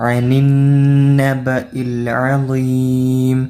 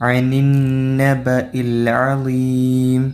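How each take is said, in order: No difference in how they are said.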